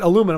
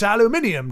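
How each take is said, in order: First: It is said the American way. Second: It is said the British way. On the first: "there's only one way to say that" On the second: "the folks across the pond will, like aluminium"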